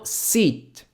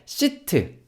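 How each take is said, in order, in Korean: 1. 마지막 T는 거의 안 들려요. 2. 마지막 T는 모음과 같이 완전히 터져요. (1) "T 발음 안 들리게 한다" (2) "요게 아니고"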